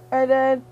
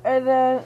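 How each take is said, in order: Both takes have the same delivery.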